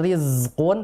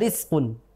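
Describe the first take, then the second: First: The consonant before q is a z sound. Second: The consonant before q is an s sound. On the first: The speaker calls it right. "harusnya kan" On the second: The speaker calls it wrong. "huruf zai sukun itu terbaca sin"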